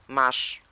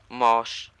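First: The vowel is a short, open a. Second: The vowel sounds like an o. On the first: "A kreskowanym. ... przeczytałem U kreskowane jak U otwarte" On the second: "A pochylone, czyli to O"

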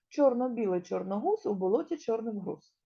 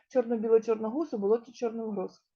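First: It is said at a faster pace. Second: It is said at the fastest pace. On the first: "Давайте швидше його будемо вимовляти її" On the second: "А ще швидше"

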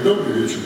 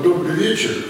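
First: It is said in a casual, offhand way. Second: It is said in a warm, sincere way. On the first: No real wish is meant. The speaker calls it wrong. "Не так расхоже, как мы обычно говорим" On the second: A real wish for a good evening is meant. The speaker calls it right. "я вам желаю всем доброго вечера"

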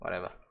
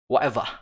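First: It is said in the speaker's ordinary accent. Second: It is said in a put-on British accent.

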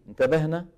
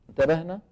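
No difference in how they are said.

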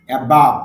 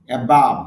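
Both takes have the same delivery.

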